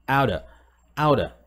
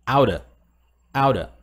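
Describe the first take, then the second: Both takes have the same delivery.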